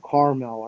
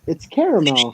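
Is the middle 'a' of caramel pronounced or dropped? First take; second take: dropped; pronounced. First: The middle vowel is dropped, giving two syllables. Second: The middle vowel is pronounced, giving three syllables. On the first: This is how the coworkers say it. ""Oh, we call it caramel,"" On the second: This is how the speaker says it. "There's an A in the word"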